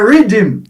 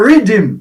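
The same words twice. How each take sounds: First: The word is said in a Jamaican way. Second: The same.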